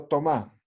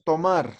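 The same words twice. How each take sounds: First: "tomar" without its r, stressed tomÁ; imperative form. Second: Said in the usual way. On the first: Shown as a demonstration. Teacher asking for the order form, "tomar" said as tomá. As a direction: end "tomar" on a stressed open á. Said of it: "ya va a ser frase de orden". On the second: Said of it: "Umaña es tomar".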